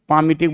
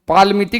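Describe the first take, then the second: First: The L sound is silent in the word. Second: The L sound is pronounced in the word. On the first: The speaker calls it right. "एल को silent रखते हैं, पामिटिक बोलते हैं" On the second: The speaker calls it wrong. "पालमिटिक नहीं बोलते हैं"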